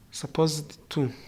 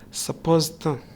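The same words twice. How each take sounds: First: The d and the full 'to' are pronounced. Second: The d drops and 'to' becomes 'tha'. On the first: The speaker calls it wrong. "We don't say suppose, supposed to carefree" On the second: The speaker calls it right. "the D is dropped and two becomes tha"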